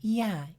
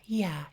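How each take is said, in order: First: It sounds nasal, blocked and muted. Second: It sounds bright and open, not nasal. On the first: "You can hear that sort of nasal, blocked sound" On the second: "with that bright resonance"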